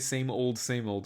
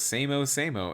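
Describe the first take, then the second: First: The word old is said in full. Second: The word old is cut short to o. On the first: The speaker calls it right. "that's not how you say same old, same old" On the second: The speaker calls it wrong. "But this guy goes same-o, same-o"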